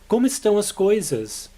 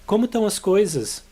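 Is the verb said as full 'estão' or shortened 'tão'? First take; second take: full; shortened. First: The verb is said in full, as estão. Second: The verb is shortened to tão, dropping es.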